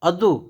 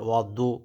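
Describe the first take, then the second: First: The d sound is light and plain. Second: The d sound is heavy and emphatic. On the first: The speaker calls it wrong. "অদু দাল হবে না" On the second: The speaker calls it right. "ওয়াদু মোটা হবে"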